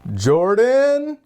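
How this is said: The name is said in a high pitch. Everything is okay.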